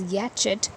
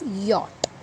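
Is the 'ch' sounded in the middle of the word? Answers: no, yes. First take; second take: yes; no. First: The 'ch' is sounded, adding an extra syllable. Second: The 'ch' is silent, one syllable only. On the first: The speaker calls it wrong. "If you were pronouncing this Y A C H T as yachet" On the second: The speaker calls it right. "please note the pronunciation is yacht"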